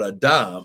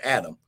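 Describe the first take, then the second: First: The name is said the Hebrew way. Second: The name is said the common English way. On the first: "Adam is his proper pronunciation mm-hmm. in Hebrew" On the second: "we like to call him Adam"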